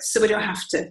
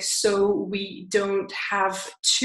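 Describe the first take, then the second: First: The words are squashed together, with sounds dropped. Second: Each word is said fully and separately. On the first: "it sounds like so we don't have to, so we don't have to. So here he's deleting some sounds and joining some together" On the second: "instead of sounding like"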